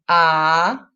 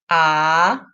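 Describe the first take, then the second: No difference in how they are said.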